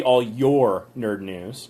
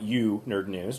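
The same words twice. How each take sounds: First: Said in the usual way. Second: "you" pushed and rising, said slowly; stress on YOU. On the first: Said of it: "that should probably be all your nerd news". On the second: Shown as a demonstration. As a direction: lean on the word "you" to show the mistake. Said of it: "not you nerd news".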